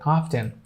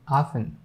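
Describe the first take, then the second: First: "often" said as "off-ten"; T pronounced. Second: "often" said as "offen"; silent T. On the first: Teacher reading the first word "often", T pronounced. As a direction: sound the T in "often". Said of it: "people used to pronounce this T". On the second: Teacher showing how this word "often" will be, silent T. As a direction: leave the T out of "often". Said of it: "keeping it silent". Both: Shown as a demonstration.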